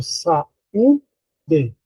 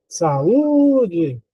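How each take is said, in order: First: "saúde" slowly split as "sa... ú... de"; "saúde" in slow separate syllables, stressing "ú". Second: "saúde" called with a long, swooping "Ú"; mock call, "sa-ÚÚÚ-de"; stress on Ú. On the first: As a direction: sound out "saúde" with gaps between syllables. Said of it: "a sílaba tônica é U". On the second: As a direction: stretch the "Ú" as if calling "saúde". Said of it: "a mais forte é u". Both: Shown as a demonstration.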